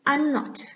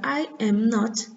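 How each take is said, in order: First: The first two words merge into one shorter syllable. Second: Each word is said separately, in full. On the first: "eu posso abreviar colocando I'm not" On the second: "ao invés de usar I am not"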